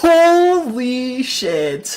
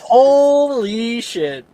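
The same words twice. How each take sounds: First: Drawn-out slow amazement; stunned. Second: Slow drawn-out disbelief; stunned. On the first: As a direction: let it hang in awe. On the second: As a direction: echo it in slow awe. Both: Real, not acted.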